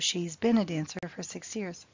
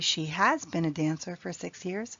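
First: She has is shortened to one syllable. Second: She has is said as two full words. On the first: "native English speakers usually do the contraction" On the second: "You can equally say"

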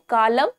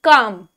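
First: The L sound is pronounced in the word. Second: The L sound is silent in the word. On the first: The speaker calls it wrong. "calm नहीं होता" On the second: The speaker calls it right. "इसका L जो होता है वो silent हो जाता है"

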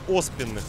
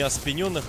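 First: The stress falls on the first syllable. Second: The stress falls on the second syllable. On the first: The speaker calls it right. "а оспенных надо ударение ставить от слова осп" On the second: The speaker calls it wrong. "не оспененных"

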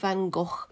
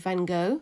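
First: The name is said the speaker's familiar British way. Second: The name is said the American way. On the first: "is kind of what I grew up knowing" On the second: "in America he's called"

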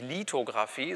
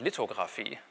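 First: The first vowel is long and tense. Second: The first vowel is short and lax. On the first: "das heißt nicht Lithografie" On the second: "es kommt auch nicht der Ungespannte, das heißt auch nicht Lithografie"

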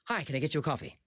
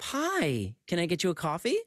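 First: The waiter sounds hurried, wanting to leave. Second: The waiter sounds eager and overly friendly.

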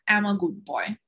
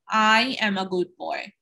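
First: The words run together and "am" is contracted. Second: Each word is said clearly and separately. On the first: The speaker calls it wrong. "I will be missing" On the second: The speaker calls it right. "very clearly and separately, each and every word"

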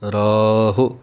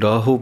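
First: The word ends with a short 'u' vowel. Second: The word ends with an 'o' vowel. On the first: The speaker calls it right. "ਰਾਰੇ ਦੇ ਕੰਨੇ ਨੂੰ ਲੰਮਾ ਬੋਲ ਕੇ ਹਾਹੇ ਔਂਕੜ" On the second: The speaker calls it wrong. "ਹਾਹੇ ਨੂੰ ਹੋੜਾ ਲਗਾ ਦਿੰਦੇ ਹਨ, ਉਹ ਗਲਤ ਹੈ"

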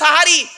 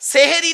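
First: The word begins with a 'sa' sound. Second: The word begins with a 'se' sound. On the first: The speaker calls it right. "আরবিতে সাহারি বলে" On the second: The speaker calls it wrong. "সেহেরি না সাহারি?"

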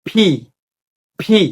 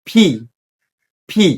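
No difference in how they are said.

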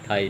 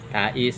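First: The name is said as one syllable, "tie". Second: The name is said as two syllables, "ta-is". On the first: The speaker calls it wrong. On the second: The speaker calls it right.

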